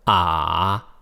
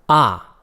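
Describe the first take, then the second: First: The syllable carries the third tone. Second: The syllable carries the fourth tone.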